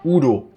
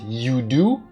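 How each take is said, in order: First: The name is said with a German pronunciation. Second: The name is said with an English pronunciation. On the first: "sounds like the German name, the way I just pronounced it" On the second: "more of an English way of saying it"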